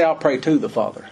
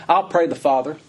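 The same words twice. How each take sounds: First: I'll pray "to" the Father, "to" stressed; the wrong version. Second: I'll pray the Father, no to, stress on I'll; "I'll" lifted, "pray the Father" straight on, no "to"; as written. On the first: Preacher contrasting the misquote, "to" stressed. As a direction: lean on "to" to show the misquote. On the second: Preacher quoting Jesus exactly, stress on I'll. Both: Shown as a demonstration. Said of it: "He didn't say".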